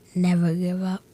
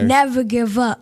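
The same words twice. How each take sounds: First: It is said quietly. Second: It is said loudly.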